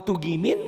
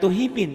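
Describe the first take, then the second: First: "tugimin" with a hard g; plain G in tugimin. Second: "tuhimin" with h in place of g; H replacing G. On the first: Explaining how Javanese say it, "tugimin" with hard g. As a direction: say "tugimin" with a clear g, no h. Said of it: "orang Jawa kalau ngomong tugimin nggak tuhimin". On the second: Showing the misreading, "tuhimin" with breathy h for g. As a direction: swap the g for an h: "tuhimin". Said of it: "Tapi kenapa kalau Quran tuhimin?". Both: Shown as a demonstration.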